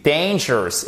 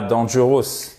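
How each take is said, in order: First: English DANGEROUS, strong first syllable, weak ending; correct English pronunciation. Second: DANGEROUS read as French, "dan-zhu-ross"; French-style DANGEROUS, every syllable full; wrong French pronunciation. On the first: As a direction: model DANGEROUS stressed on DAYN. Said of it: "dangerous et pas dangerous". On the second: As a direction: mangle DANGEROUS with French vowels. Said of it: "et pas dangerous". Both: Shown as a demonstration.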